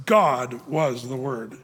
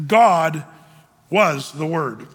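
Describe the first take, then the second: First: Said in the usual way. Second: "God" punched loud at the start, then "was the Word" falls away; emphatic Greek word order, "God" first and loud; stress on GOD. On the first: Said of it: "That's really what it says". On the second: Shown as a demonstration. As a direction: hit "God" hard and let the rest drop. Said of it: "And it reads like this".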